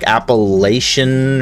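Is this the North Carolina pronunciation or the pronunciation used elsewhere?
elsewhere. It is said the way other regions say it. The speaker calls it wrong. "That's how they pronounce it, like everywhere else"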